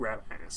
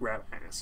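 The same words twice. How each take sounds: First: It is said in an American accent. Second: The same.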